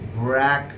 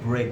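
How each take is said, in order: First: The vowel is short, as in 'breck'. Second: The vowel is long, as in 'brake'. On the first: The speaker calls it right. "that is brack" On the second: The speaker calls it wrong. "this is not break"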